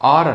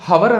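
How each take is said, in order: First: The word starts directly with a vowel sound. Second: The word starts with an audible h sound. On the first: The speaker calls it right. "అది ఆర్ అనాలి" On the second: The speaker calls it wrong. "మనం హవర్ అనరాదు"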